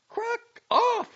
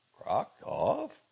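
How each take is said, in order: First: High, loud furious retort; blazing anger. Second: Puzzled question with a rising end, a bit louder; faintly hopeful question. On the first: Girl correcting the doctor's hope, blazing with anger. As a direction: fling the words back, blazing. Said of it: "she blazed forth". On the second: Doctor hoping it is some new honor, faintly hopeful. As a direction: ask it with a touch of hope. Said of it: "voice expressed a faint hope". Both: A narrator's reading.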